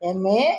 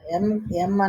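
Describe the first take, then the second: First: The letter name ends with an added 'e' vowel. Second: The letter name ends on a closed 'm' sound. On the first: The speaker calls it right. "ఎంఏ అంటాం" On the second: The speaker calls it wrong. "ఎం ఎం అనకుండా"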